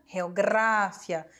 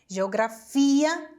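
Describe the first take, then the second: First: The stress falls on the syllable gra. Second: The stress falls on the syllable fi. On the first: This is the Spanish form. "em língua espanhola vai ser a sílaba anterior" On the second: This is the Portuguese form. "na língua portuguesa, todas as palavras terminadas em gia, ia, é, ela vai ser ali no final"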